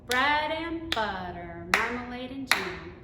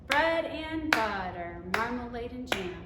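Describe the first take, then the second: The two takes are said the same way.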